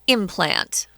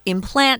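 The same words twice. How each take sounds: First: The stress is on the first syllable. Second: The stress is on the second syllable. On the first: It is used as a noun. "But the noun is implant" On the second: It is used as a verb. "the verb is to implant. And the strong syllable is on the second syllable"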